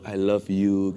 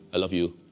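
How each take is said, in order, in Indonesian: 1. Diucapkan dengan hangat, penuh perasaan. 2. Diucapkan dengan datar, seperti robot. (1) "dengan dengan ekspresi" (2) "Robot kali"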